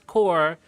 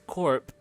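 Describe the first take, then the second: First: It ends without any P sound. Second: It ends with an audible P sound. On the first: It refers to a military unit. "you only pronounce core when it's specifically referring to like the military corps" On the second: It is short for corporation. "technically it's corp"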